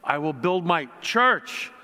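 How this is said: The word 'church' is stressed. "Every time we kind of put an emphasis on each word"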